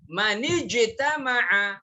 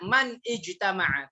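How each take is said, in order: First: The words run together with no break. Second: The words are said with a break between them. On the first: The speaker calls it right. "wasal. Di bypass langsung" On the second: The speaker calls it wrong.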